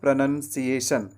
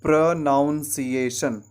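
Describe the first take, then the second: First: The second syllable sounds like 'nun'. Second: The second syllable sounds like 'noun'. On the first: The speaker calls it right. "प्र के बाद आपको नन कहना है" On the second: The speaker calls it wrong. "हम गलती second syllable पे करते हैं। ... इस तरीके से कहते हैं"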